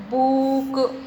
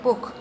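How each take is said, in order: First: बुक with the vowel stretched long, "boook"; बुक stretched slowly as a wrong example; drawn-out wrong way. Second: Said in the usual way. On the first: Shown as a demonstration. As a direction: drag out the middle of बुक. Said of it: "ऐसे नहीं बोल रहे हैं". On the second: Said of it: "बुक एक साथ में हम बोल रहे हैं".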